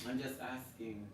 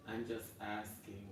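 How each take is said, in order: First: Said in the usual way. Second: Much softer and slower "I'm just asking"; quiet, slow mock-innocent repeat. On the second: Real, not acted. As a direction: drop the voice and drag it out, mock innocent. Defensive aside, repeated.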